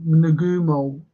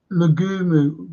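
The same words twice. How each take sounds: First: Nagumo, nuh-GOO-mo, settled and sure; Nagumo, the corrected way; Nagumo said right. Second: Nagumo first try, nah-GOO-moo; Nagumo, first shaky attempt; Nagumo said wrong. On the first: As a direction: Nagumo with a falling finish. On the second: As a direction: Nagumo tried with a rise at the end. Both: Shown as a demonstration. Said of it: "is how you say it".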